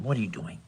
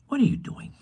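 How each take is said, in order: First: Said in the usual way. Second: Squeaky pet voice. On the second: Real, not acted. Baby-talk to the cat.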